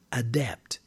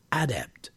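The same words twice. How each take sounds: First: Adept with the stress on the second syllable, a-DEPT; verb stress. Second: Adept with the stress on the first syllable, AD-ept; noun stress. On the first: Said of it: "for the noun, the stress is on". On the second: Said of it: "the stress is on the first syllable". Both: Shown as a demonstration.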